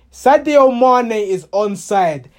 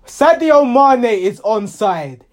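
Both takes have the same delivery.

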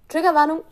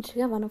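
First: "Triggerwarnung" laut und höher ausgerufen; emphatic exclamation. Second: Said in the usual way. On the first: Shown as a demonstration. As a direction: shout "Triggerwarnung" as a punchline. („Triggerwarnung“ laut und betont ausrufen)

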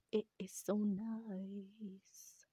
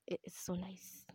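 First: Very slow, "nice" stretched long; drawn-out gushing. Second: Said in the usual way. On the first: Real, not acted.

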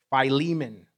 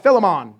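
First: "Philemon" said as fie-LEE-mun, long "eye" first; correct pronunciation. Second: "Philemon" said as fih-leh-mon, stress on the first syllable; old mispronunciation. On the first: Shown as a demonstration. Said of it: "It can be pronounced Philemon". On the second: Retold or imitated. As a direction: plays his old way of saying "Philemon". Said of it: "I was always like".

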